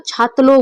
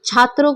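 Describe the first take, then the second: First: छात्लो with l in place of r; lisping child's pronunciation. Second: Said in the usual way. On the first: Shown as a demonstration. Teacher imitates a lisping pupil, छात्लो with l for r. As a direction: turn the r into l in छात्लो. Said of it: "कोई बच्चा तोतला के बोलता है". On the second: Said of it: "छात्रों को वो छात्लो बोलेगा".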